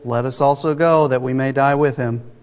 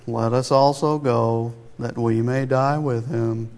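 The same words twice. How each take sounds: First: It is said in his normal voice. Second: It is said in a gloomy Eeyore voice.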